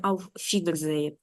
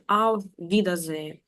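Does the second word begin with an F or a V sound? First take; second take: F; V. First: The second word begins with an f sound. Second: The second word begins with a v sound. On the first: The speaker calls it wrong. "а не" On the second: The speaker calls it right. "Ось він"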